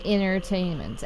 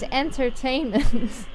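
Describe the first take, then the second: First: The T after the N is dropped. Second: The T after the N is pronounced.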